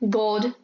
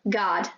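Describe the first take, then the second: First: It is said in a British accent. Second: It is said in an American accent. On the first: "in British English, the O sound is really nice and round and audible" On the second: "In American English, O is sometimes pronounced as a sound that rather resembles a"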